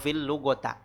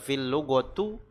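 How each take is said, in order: First: The last word ends in an a vowel. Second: The last word ends in a u vowel. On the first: "atau fil lugota" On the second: "Bukan dibaca fil lugotu"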